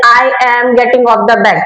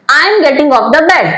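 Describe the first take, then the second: First: I am getting off the bed read the wrong way; I am said as two stiff separate words. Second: I am getting off the bed with I am blended; I am run together smoothly; right way of reading. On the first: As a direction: model the mistake in I am. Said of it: "ऐसे नहीं पढ़ेंगे". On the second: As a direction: say I am as one flowing unit. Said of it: "यहाँ पे हम पढ़ेंगे". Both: Shown as a demonstration.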